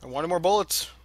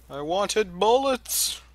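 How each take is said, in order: First: Said in the usual way. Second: Slow, higher, louder whine; whiny complaint. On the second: Pretend. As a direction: drag it out like a sulky kid. Whines for more bullets.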